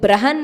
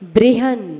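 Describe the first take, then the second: First: The first syllable is said as plain 'brah'. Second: The first syllable is said with an 'ri' vowel. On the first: The speaker calls it wrong. "ब्रहन नहीं" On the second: The speaker calls it right. "ऋषि की रेफ"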